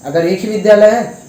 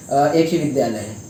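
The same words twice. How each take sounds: First: Louder and higher, pressing the point; emphatic repeat. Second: Said in the usual way. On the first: Real, not acted. Student leader pressing the management, louder and higher. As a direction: hit it harder the second time.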